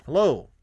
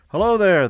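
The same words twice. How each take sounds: First: Calling again. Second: Loud, high hail across the distance; calling out. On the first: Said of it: "and called again". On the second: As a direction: call out to a rider far off. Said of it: "the man called". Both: A narrator's reading.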